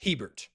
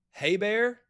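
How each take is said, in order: First: "Hebert" as HEE-burt, T sounded; low "Hebert" with long E and final T; spelling pronunciation. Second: "Hebert" as hay-BEAR, silent T; "Hebert" with a long A and no final T; local French pronunciation. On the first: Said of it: "or is spelled H E B E R T". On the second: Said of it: "is pronounced". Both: Shown as a demonstration.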